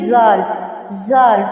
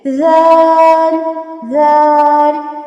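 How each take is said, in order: First: It begins with a buzzing z sound. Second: It begins with a soft th-like sound. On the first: The speaker calls it wrong. "तो ये गलत हो जाएगा" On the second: The speaker calls it right. "इसको नरमी से पढ़ते हैं"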